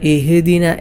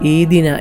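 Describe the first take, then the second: First: The h has an added bouncing echo. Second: The h sound is left out entirely. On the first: "ഹ ഇൽ കൽക്കല കൊടുത്തുകൊണ്ടോതും" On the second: "ഹ ഇല്ലാത്തതുപോലെ"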